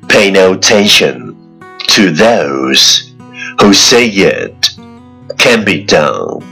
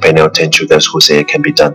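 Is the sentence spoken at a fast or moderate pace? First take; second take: moderate; fast. First: It is spoken at a moderate, even pace. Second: It is spoken very fast in one breath.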